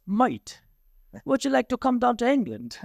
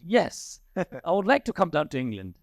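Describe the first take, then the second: First: Light imitation of an English accent, pitched higher. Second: Said in the usual way. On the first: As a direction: lightly put on English accent, friendly invitation. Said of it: "He said to me in his English voice". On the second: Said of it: "I said".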